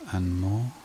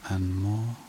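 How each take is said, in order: Both takes have the same delivery.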